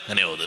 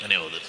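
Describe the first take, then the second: No difference in how they are said.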